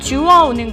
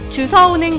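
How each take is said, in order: First: The second syllable starts with a w sound. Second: The second syllable starts with an s sound. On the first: The speaker calls it right. "표준어는 주워가 아니라 주워입니다" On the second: The speaker calls it wrong. "잘못 얘기하고 있진 않으신가요?"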